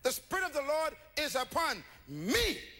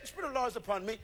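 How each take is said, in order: First: It is read as a personal claim. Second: It is read in a detached way.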